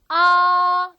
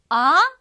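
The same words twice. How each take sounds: First: The pitch stays high, level and long. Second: The pitch rises like a question. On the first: "일성은 우리 산, 토끼 할 때 그 산처럼 아주 길게 솔음으로 아 길게 나가면 되고요" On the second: "이렇게 물어볼 때 네? 할 때처럼"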